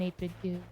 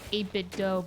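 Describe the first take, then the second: First: The last word rhymes with too. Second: The last word rhymes with go. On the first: "I've always said do" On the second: "Dough sounds better"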